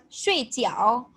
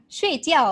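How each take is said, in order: First: "shui jiao" slow, ending on a rise; Mandarin dumpling tones. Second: "shui jiao" with "jiao" falling; mistaken Mandarin tones. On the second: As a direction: say "shui jiao" as sleep, ending downward. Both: Shown as a demonstration. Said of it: "mess up your tones".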